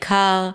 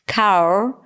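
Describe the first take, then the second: First: The word ends without an R sound. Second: A rough R sound ends the word. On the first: The speaker calls it right. "the way you've been always pronouncing the R when it's at the end" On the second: The speaker calls it wrong. "pronounce that new R at the end"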